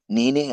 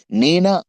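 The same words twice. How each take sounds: First: నేనే said plainly, accepting the blame; accepting admission. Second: Loud, emphatic నేనా asked as a denial; challenging question. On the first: Preacher urges answering like David, accepting admission. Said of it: "అంటే దావీదులాగా ఆశీర్వదించబడతావు". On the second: Preacher warns against answering like Judas, challenging question. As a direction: throw out నేనా loudly as a question. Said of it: "అంటే ఇస్కరియోతు యూదాలా అవుతావు". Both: Retold or imitated.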